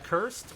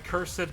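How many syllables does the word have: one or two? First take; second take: one; two. First: The word is said as one syllable. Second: The word is said as two syllables. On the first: It is the past tense of a verb. "That's one syllable" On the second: It is an adjective describing something. "two syllables"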